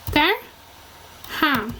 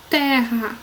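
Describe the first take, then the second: First: Terra as ter, long pause, ra; syllable by syllable. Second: Said in the usual way. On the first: Shown as a demonstration. Teacher applying the double R rule, terra split in two. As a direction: split terra slowly between the two R's. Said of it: "um R vai pra uma sílaba". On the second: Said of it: "Na palavra".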